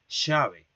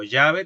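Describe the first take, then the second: First: The word begins with a voiceless sh sound. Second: The word begins with a y-like sound. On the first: "te dirán llave" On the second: "en lugar de decirte, por ejemplo, llave"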